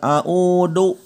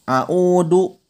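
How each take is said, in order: Both takes have the same delivery.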